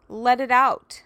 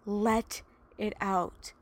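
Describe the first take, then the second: First: Urging release. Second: Gentle release. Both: Real, not acted. Urges listeners to release.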